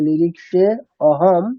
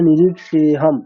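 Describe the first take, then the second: First: An extra a sound is said separately before hum. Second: It runs together as one word without extra a. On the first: The speaker calls it wrong. "এরকম বলা যাবে না আলাদা করে" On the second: The speaker calls it right. "ওখানে অ বলে কিছু নেই, এটা ভেবেই আমাদেরকে উচ্চারণ করতে হবে"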